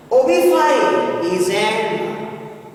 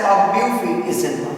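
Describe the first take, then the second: First: "O B five Izenwa" slowly, name by name; correct pronunciation demo. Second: Obufi Izenwa said quickly, in one run; name pronunciation demo. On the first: Teacher gives students the right pronunciation, slow careful demo. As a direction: draw out "O B five", "five" rhyming with eye, then Izenwa. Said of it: "This is the right pronunciation". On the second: Teacher shows students how a name is said, brisk pronunciation demo. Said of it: "We pronounce it as". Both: Shown as a demonstration.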